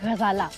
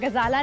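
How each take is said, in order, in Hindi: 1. यह गले के पिछले हिस्से से निकलने वाली, गहरी 'gh' की आवाज़ से शुरू होता है। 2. यह सादे, कठोर 'g' की आवाज़ से शुरू होता है। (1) "गा फलक से निकलना चाहिए" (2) "गजाला नहीं"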